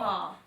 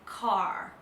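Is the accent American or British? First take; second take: British; American. First: It ends open, with no R sound. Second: It ends with a clear R sound. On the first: The speaker calls it right. "in British English, we don't say the R at the end. It's just open" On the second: The speaker calls it wrong. "But in America, they say it like"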